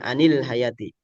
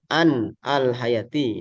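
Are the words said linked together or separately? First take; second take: linked; separately. First: The words are linked together into one flow. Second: The words are said separately, without linking. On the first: "kalau di wasol ya jadi anil hayati" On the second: "Ini bisa seperti itu"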